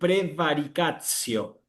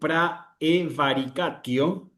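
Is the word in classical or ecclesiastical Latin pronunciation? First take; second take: ecclesiastical; classical. First: It is said in ecclesiastical Latin pronunciation. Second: It is said in classical Latin pronunciation. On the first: "en la pronunciación eclesiástica voy a decir" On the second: "En latín clásico voy a decir"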